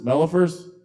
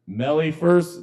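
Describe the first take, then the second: First: "Mellifers" with a weak uh in the middle; name said MEL-uh-fers. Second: "Mellifers" with an ee in the middle; name said MEL-ee-fers. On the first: Host retrying a performer's surname, "Mellifers" said MEL-uh-fers. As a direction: try "Mellifers" as MEL-uh-fers, higher, questioning. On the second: Host reading a performer's surname, "Mellifers" said MEL-ee-fers. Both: Real, not acted.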